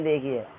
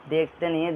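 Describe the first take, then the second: First: "देखी" stressed, falling. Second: "देखते" stressed against "देखी". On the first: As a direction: lean on "देखी" with a fall. ("देखी" पर ज़ोर, गिरती आवाज़) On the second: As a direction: contrast the word "देखते" with "देखी". ("देखते" पर ज़ोर) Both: Shown as a demonstration. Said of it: "देखते नहीं है, देखी है".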